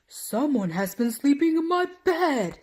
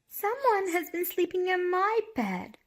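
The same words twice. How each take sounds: First: It is said in a great big voice. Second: It is said in a wee small voice.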